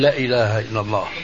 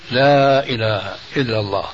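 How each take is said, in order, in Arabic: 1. الحركة في 'la' قصيرة. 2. الحركة في 'la' طويلة. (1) "ما بصير نقول لا إله إلا الله لأنه بتغير المعنى" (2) "فبدك مد حركتين"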